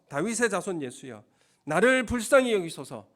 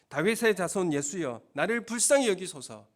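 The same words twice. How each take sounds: First: It is shouted in a louder voice. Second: It is called out at normal loudness.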